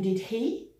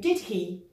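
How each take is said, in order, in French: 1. La voix monte à la fin du tag. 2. La voix descend à la fin du tag. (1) "je suis vraiment surprise ou pas sûre du tout" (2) "quand on utilise intonation descendante, on est sûr"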